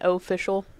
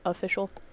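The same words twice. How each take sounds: First: The first syllable 'o' is strongly emphasized. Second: The first syllable 'o' is said lightly. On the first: "emphasize the O in official" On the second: "instead of official"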